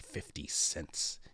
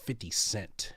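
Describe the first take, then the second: First: The final s sound of cents is pronounced. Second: The final s sound of cents is dropped. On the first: The speaker calls it right. "He doesn't say fifty cents" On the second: The speaker calls it wrong. "He says fifty cent"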